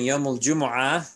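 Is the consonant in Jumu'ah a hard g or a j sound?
j sound. The word Jumu'ah starts with a j sound. This is the usual form. "Instead of saying"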